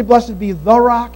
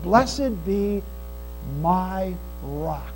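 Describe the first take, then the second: First: "the" leaned on in "the rock"; stress on THE. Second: Slow, low and soft, with "my" set apart; pause, then lean gently on "my"; stress on MY. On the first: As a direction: stretch and stress the word "the". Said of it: "he doesn't say". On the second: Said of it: "he said". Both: Shown as a demonstration.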